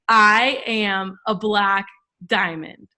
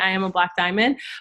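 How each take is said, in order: First: It is said firmly, with strong conviction. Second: It is said casually, without conviction. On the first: It is an incantation said with belief. The speaker calls it right. "it's different when you say" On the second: It is a plain affirmation. The speaker calls it wrong. "it's different when I say"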